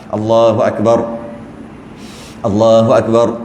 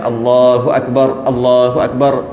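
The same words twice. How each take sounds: First: A long breath pause separates the phrases. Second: The r is cut off without a breath. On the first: It makes the takbir drag on too long. The speaker calls it wrong. "Sebab kalau tarik nafas, dia panjang pula" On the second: It keeps each takbir firm and complete. The speaker calls it right. "Tapi yang afdalnya"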